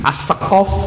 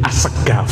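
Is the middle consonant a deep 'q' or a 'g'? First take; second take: deep q; g. First: The middle consonant is a deep throaty q. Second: The middle consonant is a hard g.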